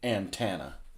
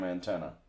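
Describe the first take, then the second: First: It is said in a Southern US accent. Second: It is said in a neutral accent.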